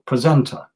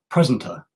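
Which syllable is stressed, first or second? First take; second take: second; first. First: The stress is on the second syllable. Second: The stress is on the first syllable.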